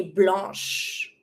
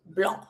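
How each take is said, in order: First: Blanche closed on a sh sound; French "blanche" as blahnsh; mute final E. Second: Blanc with a mute C; French "blanc" as blahn; silent final C. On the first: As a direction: end "blanche" on sh, no vowel. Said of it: "you don't pronounce the E". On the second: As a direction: end "blanc" on the nasal vowel. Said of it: "it's mute". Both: Shown as a demonstration.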